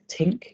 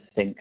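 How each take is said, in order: First: The word begins with a plain t sound. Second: The word begins with a th sound. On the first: The speaker calls it wrong. "sounded a bit like tink" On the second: The speaker calls it right. "instead of think"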